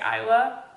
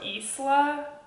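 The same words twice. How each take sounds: First: The s is silent, with no hissing sound. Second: The s is pronounced with a hissing sound. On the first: "but I'm gonna say Isla" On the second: "pronounced it correctly with the like hissing like a snake"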